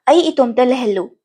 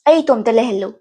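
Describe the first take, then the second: Both takes have the same delivery.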